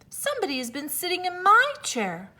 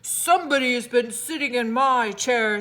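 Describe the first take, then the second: First: It is said in a medium voice. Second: It is said in a deep, gruff voice.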